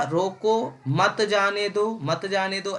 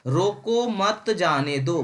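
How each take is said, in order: First: रोको apart, मत जाने दो joined and slow; pause after रोको. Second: रोको मत joined slowly, then जाने दो; pause after मत. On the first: Teacher contrasts the first comma position, pausing after रोको. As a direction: break after रोको, repeat मत जाने दो as one unit. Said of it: "यहाँ पे था". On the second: Teacher contrasts the second comma position, pausing after मत. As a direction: run रोको into मत, break before जाने दो. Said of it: "यहाँ क्या था". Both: Shown as a demonstration.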